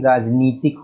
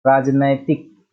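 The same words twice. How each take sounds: First: राजनीतिक with long ee, raaj-nee-tik; long ee vowel. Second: राजनैतिक with ai in the middle, raaj-nai-tik; wrong ai vowel. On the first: Teacher giving the correct form, राजनीतिक with long nee. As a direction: say राजनीतिक with nee, never nai. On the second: Teacher showing the error, राजनैतिक slowly with nai. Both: Shown as a demonstration. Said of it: "नहीं, राजनीतिक होता है".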